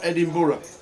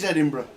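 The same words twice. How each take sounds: First: The ending is a full 'borough' sound. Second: The ending is a short 'bruh' sound. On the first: The speaker calls it wrong. "It's not Edinburgh" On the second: The speaker calls it right. "It is Edinburgh"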